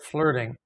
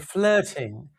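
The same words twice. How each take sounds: First: The middle consonant sounds like a D. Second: The middle consonant is a clear T sound. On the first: "we change the T to a D sound" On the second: "In England, they'll say flirting"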